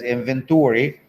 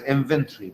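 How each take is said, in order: First: The word is said with an American pronunciation. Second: The word is said with a British pronunciation. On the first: "The Americans read it as inventory" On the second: "British read it as inventory"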